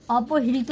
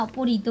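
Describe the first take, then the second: First: अपहृत as "opo-hi-rito", h before the r; wrong reading. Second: अपहृत as "opo-rito", no h before the r; correct reading. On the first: Teacher showing the mistake to avoid, wrong reading. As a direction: sound the h ahead of the r in अपहृत. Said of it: "अपहृत नहीं पढ़ना है". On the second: Teacher giving learners the right form, correct reading. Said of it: "अपहृत पढ़ना है". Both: Shown as a demonstration.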